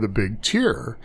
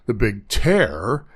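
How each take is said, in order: First: Tear is said rhyming with beer. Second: Tear is said rhyming with bear. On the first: It means a drop from crying. "as in crying" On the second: It means ripping something apart. "as in tearing paper"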